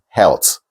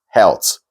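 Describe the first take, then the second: No difference in how they are said.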